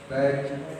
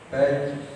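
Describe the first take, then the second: First: The consonant sounds like a j. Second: The same.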